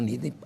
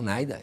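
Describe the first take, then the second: First: The first vowel is said like Portuguese 'i'. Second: The first vowel is said like English 'eye'. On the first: The speaker's own Portuguese-adapted way. "eu falo NIDA aportuguesado" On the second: Someone else said it this way. "Ele falou NAIDA"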